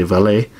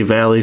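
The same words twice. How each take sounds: First: "Valet" ending in an ay sound; "Valet" with a final ay, not ee; pronounced Vallée. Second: "Valley" rhyming with alley; pronounced Valley. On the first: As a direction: say "Valet" as val-AY, French style. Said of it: "some people say Valet". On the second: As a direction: say "Valley" with stress first and an ee ending. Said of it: "some people say Valley". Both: Shown as a demonstration.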